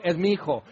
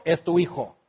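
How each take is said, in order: First: "mi" leaned on in "es mi hijo"; stress on mi. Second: "tu" leaned on in "es tu hijo"; stress on tu. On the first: Parent claiming the good child, stress on "mi". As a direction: proudly stress "mi". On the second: Parent blaming the spouse for the naughty child, stress on "tu". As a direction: hand off the blame with "tu". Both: Retold or imitated. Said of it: "Como decimos".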